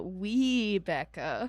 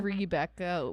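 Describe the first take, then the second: First: "Webecca" very slow, with a long "wee" at the start; stretched W pronunciation. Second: "Rebecca" with a drawn-out "ree" at the start; stretched R pronunciation. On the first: Co-host spelling out the odd name, "Webecca" opening on a long "wee". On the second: Co-host spelling out the contrast, "Rebecca" opening on a long "ree". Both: Shown as a demonstration. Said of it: "but Webecca".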